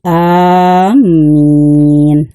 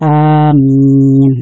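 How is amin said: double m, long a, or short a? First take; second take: double m; long a. First: The first vowel is long and the m doubled. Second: The first vowel is long and the m single. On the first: Those who intend to go. "alifnya dipanjangkan ya, dan mimnya bersyadah" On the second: O Allah, grant our prayer. "dibaca panjang, a-nya, alifnya dipanjangkan"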